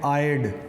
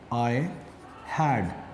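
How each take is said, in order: First: The two words are contracted into one syllable. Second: The two words are said fully and separately. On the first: "जो natives हैं वो use करते हैं आयड" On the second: "आयड means आई हैड"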